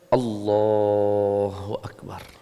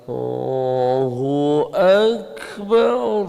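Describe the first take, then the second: First: The phrase is said at moderate speed. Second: The phrase is drawn out very slowly. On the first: The speaker calls it right. "Simpel saja" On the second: The speaker calls it wrong.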